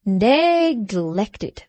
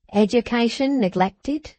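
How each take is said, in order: First: "Neglected" stressed, a touch louder, rising; with emphasis. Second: Said in the usual way. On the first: A narrator's reading. Boffin repeating Wegg's word, a touch louder and stressed. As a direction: lean hard on "Neglected". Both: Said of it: "repeated Boffin with emphasis".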